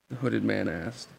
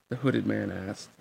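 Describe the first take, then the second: Both takes have the same delivery.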